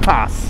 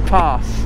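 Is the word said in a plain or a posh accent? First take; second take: plain; posh. First: The word is said in a plain accent. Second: The word is said in a posh accent.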